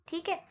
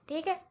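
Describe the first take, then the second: The two takes are said the same way.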